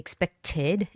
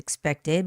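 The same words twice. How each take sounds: First: The T is pronounced crisply and clearly. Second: The T is softened and barely released. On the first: "but you can say expected" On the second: "I read it as expected"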